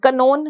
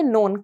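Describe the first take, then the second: First: The word starts with a k sound. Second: The word starts with an n sound. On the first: The speaker calls it wrong. "कनोन नहीं पढ़ना" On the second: The speaker calls it right. "इसको पढ़ेंगे नोन"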